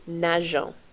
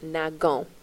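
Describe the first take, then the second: First: The middle consonant is a soft zh sound. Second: The middle consonant is a hard g sound. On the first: The speaker calls it right. "you're actually adding eons, and that's for pronunciation purposes" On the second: The speaker calls it wrong. "it would be pronounced nagon, which is incorrect"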